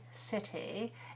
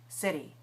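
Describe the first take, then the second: First: It has a British accent with a crisp t. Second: It has an American accent with a tapped t. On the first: "the British might say city" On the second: "Americans say"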